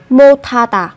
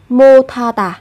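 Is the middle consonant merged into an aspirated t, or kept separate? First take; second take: merged; merged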